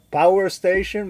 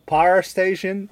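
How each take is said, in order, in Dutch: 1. De w-klank in power wordt duidelijk uitgesproken. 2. De w-klank in power wordt weggelaten. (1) "we kwamen ook langs een plek met een power station" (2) "maar dat was een power station"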